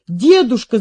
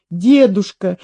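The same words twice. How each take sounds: First: Put-on girl's alarmed call, slightly raised; crying out. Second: Put-on mildly scared little girl; frightened. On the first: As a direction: call out urgently to grandfather. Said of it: "закричала она". (встревоженный вскрик девочки) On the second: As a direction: say it with a touch of alarm, not shouted. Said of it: "испуганно сказала девочка". (испуганно, негромко) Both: A narrator's reading.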